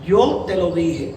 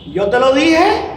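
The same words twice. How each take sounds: First: It is said as a plain statement. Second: It is said as a question.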